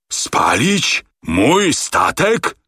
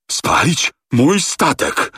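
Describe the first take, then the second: First: High, very slow rising questions; can't believe it, aghast; outraged disbelief. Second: High, slow choked words; rasping outrage. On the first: Captain shocked. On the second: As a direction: barely get the words out. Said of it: "charkotał kapitan Speedy". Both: A narrator's reading.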